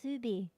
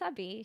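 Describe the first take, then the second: First: The word begins with a Z sound. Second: The word begins with an S sound. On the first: "she says zubi" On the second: "instead of saying subby"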